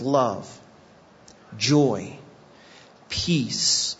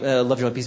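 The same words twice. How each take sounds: First: The words are read out slowly. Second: The words are rattled off quickly. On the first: Each item is given time to be considered. The speaker calls it right. "I want to read it slowly" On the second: It is recited from memory without thought. The speaker calls it wrong. "Like we do it really fast"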